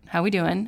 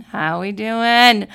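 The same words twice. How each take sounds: First: Said in the usual way. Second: Louder, slow, stretched crowd call; slow loud rally call asking the crowd; drawn-out hype call. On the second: Shown as a demonstration. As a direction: call it out to the room like an emcee. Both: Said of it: "So let's check that".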